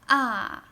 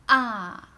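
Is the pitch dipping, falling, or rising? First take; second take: falling; falling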